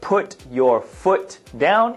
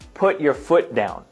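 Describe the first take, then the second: First: The T sounds are clearly pronounced. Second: The T sounds are dropped in fast speech. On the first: "it's as you see it here" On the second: "they may drop the T here and here"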